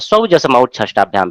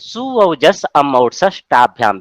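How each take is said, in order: First: The suffixes are run together with joined sounds. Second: Each suffix is said as a separate word.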